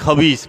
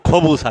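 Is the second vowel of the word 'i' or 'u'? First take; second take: i; u. First: The second vowel is an i sound. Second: The second vowel is a u sound. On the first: It names an evil person, not food. The speaker calls it wrong. "উচ্চারণে ভুল থাকলে খবিসও কয়" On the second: It means bread. The speaker calls it right. "খবিস আক্কেল মাফি, খবুস আক্কেল"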